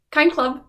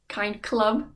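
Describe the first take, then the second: First: KIND CLUB punched louder and higher; emphatic repeat. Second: Said in the usual way. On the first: Real, not acted. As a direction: call out "Kind club" with a falling end.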